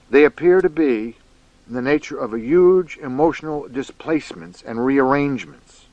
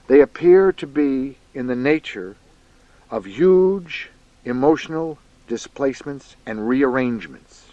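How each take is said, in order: First: It is read at a normal, quicker pace. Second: It is read at a slower, deliberate pace.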